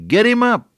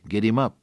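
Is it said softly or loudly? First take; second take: loudly; softly. First: It is said very loudly. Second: It is said softly.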